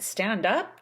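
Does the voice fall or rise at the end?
rise. The pitch rises at the end. It is a question. "up and pitch at the end"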